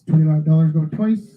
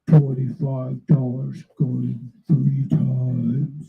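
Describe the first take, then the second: First: It is said in a normal voice. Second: It is said in a put-on deep voice.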